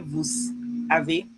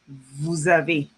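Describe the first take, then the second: First: The two words are said separately, without a z sound. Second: The words are linked with a z sound. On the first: The speaker calls it wrong. "You can't say vous avez" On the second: The speaker calls it right. "You would say vous avez. It links together"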